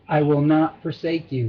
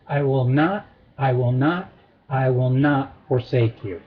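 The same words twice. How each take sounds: First: Said in the usual way. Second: Three separate, low-pitched stresses on NOT; triple emphasis. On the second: Shown as a demonstration. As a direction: hold NOT up twice, then fall to forsake. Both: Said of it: "with a triple emphasis".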